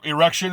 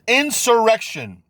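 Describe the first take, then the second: First: The opening 'in' syllable is dropped. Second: The opening 'in' syllable is pronounced. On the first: The speaker calls it wrong. "they can't even pronounce it right" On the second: The speaker calls it right. "It's insurrection"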